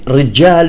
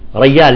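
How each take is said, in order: First: The middle consonant is a j sound. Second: The middle consonant is a y sound. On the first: "مثل كلمة رجال" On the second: "يقول ريال"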